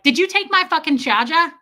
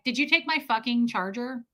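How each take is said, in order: First: It is said in a strong New York accent. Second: It is said in a plain, unaccented voice.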